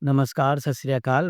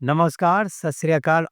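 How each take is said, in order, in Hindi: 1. अभिवादन सपाट बोला गया है, बिना किसी उतार-चढ़ाव के। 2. अभिवादन में उतार-चढ़ाव और लय के साथ बोला गया है।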